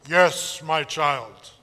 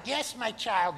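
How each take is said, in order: First: Low, booming divine voice; deep voice of God. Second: Plain, gentle God; lighter God voice. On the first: God answering the camper in a deep voice. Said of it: "that's what God's voice". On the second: Preacher suggests God sounds gentler. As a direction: say it like an ordinary kind father. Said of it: "God might sound like". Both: Acted.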